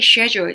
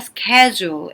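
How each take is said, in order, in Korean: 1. 영국식 발음으로 말합니다. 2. 미국식 발음으로 말합니다. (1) "영국식으로 읽으시는 분들이 schedule 이렇게 말씀하시는 거고" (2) "북미식 영어라면 절대로 schedule이라고 안 합니다. schedule 이렇게 돼야 돼요"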